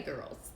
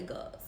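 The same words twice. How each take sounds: First: Said in the usual way. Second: Put-on "girls" with no r, like "gols"; New Orleans girls. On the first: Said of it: "They don't say girls". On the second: Shown as a demonstration. Host demoing the Southern "girls" for her viewers, r-less and hushed. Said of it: "They say girls".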